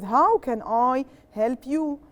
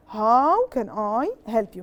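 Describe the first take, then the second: First: Slow model answer. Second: Said in the usual way. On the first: Shown as a demonstration. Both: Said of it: "So what do I start with?".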